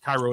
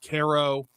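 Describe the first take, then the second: First: The name is said the Egyptian way. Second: The name is said the local American way. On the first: This is how the original city's name is said. "It's pronounced Cairo in Egypt" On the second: This is how locals say the town's name. "We pronounce everything different than it's actually pronounced"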